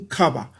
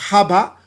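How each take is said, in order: First: The word begins with a k sound. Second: The word begins with an h sound. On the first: "du K" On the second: "le son du H"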